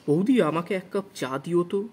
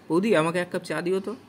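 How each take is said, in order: First: It sounds stiff and theatrically recited. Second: It sounds relaxed and conversational. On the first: The speaker calls it wrong. "এইভাবে বলবো না।" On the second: The speaker calls it right. "বলতে পারে"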